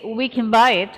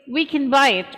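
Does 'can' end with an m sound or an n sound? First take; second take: m sound; n sound. First: The word can ends with an m sound. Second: The word can ends with an n sound. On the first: The speaker calls it right. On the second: The speaker calls it wrong.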